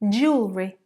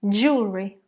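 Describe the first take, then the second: First: The word is said with two syllables. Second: The same.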